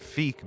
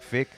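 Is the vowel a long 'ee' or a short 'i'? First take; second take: long ee; short i. First: The vowel is a long 'ee' sound. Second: The vowel is a short 'i' sound. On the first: The speaker calls it right. "I'm pronouncing it Feek because we were corrected" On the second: The speaker calls it wrong. "I was saying fick, like fix your mouth"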